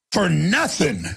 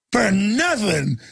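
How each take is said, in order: First: Said in the usual way. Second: FOR NOTHING drawn out slowly and hit hard; stress on FOR NOTHING. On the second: Shown as a demonstration. Host hammering home the man who bows up over nothing, slow stressed FOR NOTHING. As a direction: lean on FOR and stretch NOTHING.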